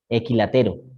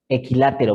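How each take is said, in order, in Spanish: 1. El acento recae en la sílaba te. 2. El acento recae en la sílaba la. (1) "Sin tilde" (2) "porque tiene la tilde"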